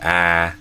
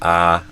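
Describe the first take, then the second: First: The vowel is made further front in the mouth. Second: The vowel is made further back in the mouth. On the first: The speaker calls it right. "I do a little more like in the front of the mouth" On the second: The speaker calls it wrong. "instead of ah"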